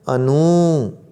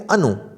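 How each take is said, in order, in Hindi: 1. अंतिम स्वर लंबा है। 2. अंतिम स्वर छोटा है। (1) "अगर बड़ा ऊ होता न में तो हम कैसे करते?" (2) "छोटा ऊ का उच्चारण हम कैसे करेंगे?"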